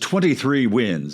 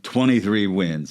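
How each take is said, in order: First: The T in twenty is clearly pronounced. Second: The T in twenty is dropped, sounding like twenny. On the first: The speaker calls it right. "it sounds a lot better to say" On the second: The speaker calls it wrong. "instead of"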